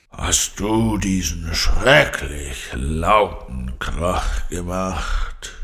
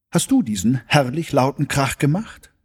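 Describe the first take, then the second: First: Slow, low growling lion; annoyed growl. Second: High, lively delighted question. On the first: Annoyed lion scolds Carla for the noise, slow growl. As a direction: growl it out slowly, thoroughly displeased. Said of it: "knurrte der Löwe verärgert". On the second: Carla marvels at the lion's noise, delighted. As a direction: ask it raised and thrilled. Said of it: "rief Carla entzückt". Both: A narrator's reading.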